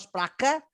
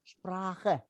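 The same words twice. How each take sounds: First: Sprache said with a hard k; wrong hard k. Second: Sprache with a soft ch sound, not k; gentle ch in Sprache. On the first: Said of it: "Not Sprache". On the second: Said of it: "See the gentle K". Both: Shown as a demonstration.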